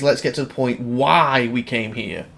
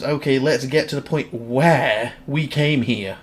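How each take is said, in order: First: "why" stretched as the correction; slow read, leaning on "why"; stress on why. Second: "where" drawn out in a slow read; stress on where. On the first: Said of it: "I think it's". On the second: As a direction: read it slowly, leaning on "where". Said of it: "'Cause that, that says". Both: Shown as a demonstration.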